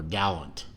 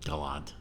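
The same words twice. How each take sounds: First: "Gallant" stressed on the first syllable, GAL-unt; anglicised pronunciation. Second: "Galant" stressed on the second syllable, guh-LAHNT; alternative pronunciation. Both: Shown as a demonstration. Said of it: "It's obviously pronounced Gallant".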